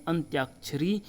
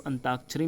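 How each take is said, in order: First: अंत्याक्षरी with a Y glide; T-Y cluster in अंत्याक्षरी; correct pronunciation. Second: अंताक्षरी without a Y; incorrect pronunciation. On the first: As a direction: say अंत्याक्षरी as "antyakshari". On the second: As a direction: say अंताक्षरी as "antakshari". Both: Shown as a demonstration. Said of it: "इसका शुद्ध रूप है".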